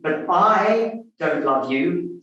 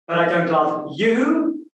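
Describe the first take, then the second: First: The stress falls on the word I. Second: The stress falls on the word you. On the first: Someone else loves the listener. "suggests that there's someone else who's in love with it" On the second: The speaker loves someone other than the listener. "because it's your best friend I'm in love with"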